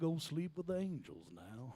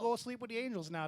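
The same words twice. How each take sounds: First: It is spoken in a Southern American man's accent. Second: It is spoken in a Midwestern American dad's accent. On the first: "Say it in your southern man voice" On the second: "The Midwestern dad"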